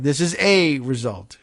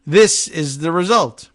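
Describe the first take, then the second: First: "a" stressed as a full "ay"; careful correction leaning on "a", said "ay"; emphatic "ay" in place of unstressed "a". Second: Said in the usual way. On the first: Shown as a demonstration. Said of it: "Ah, be careful".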